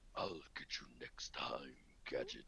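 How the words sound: It is said in Doctor Claw's deep voice.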